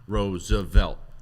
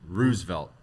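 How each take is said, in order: First: The name is said with three syllables. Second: The name is said with two syllables. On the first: "most people are throwing that third syllable in" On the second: "She's saying Roosevelt"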